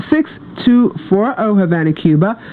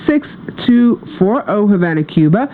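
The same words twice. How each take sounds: The two takes are said the same way.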